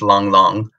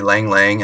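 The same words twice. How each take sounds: First: The name has a Chinese-like pronunciation. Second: The name has an American English pronunciation. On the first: The speaker calls it right. "actually it's" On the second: The speaker calls it wrong. "in the States, you know, we say"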